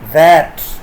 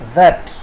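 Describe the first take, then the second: First: The word has a full, strong vowel. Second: The word has a weak, reduced vowel.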